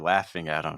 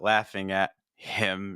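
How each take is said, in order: First: The H is dropped, linking into 'im'. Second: The H in 'him' is clearly pronounced. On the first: The speaker calls it right. "it's more ... we actually are going to drop the H" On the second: The speaker calls it wrong. "it's not"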